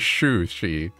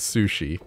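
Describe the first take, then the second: First: The word begins with a 'sh' sound. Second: The word begins with an 's' sound. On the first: The speaker calls it wrong. "You add an H. You say shushi" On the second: The speaker calls it right. "instead of sushi"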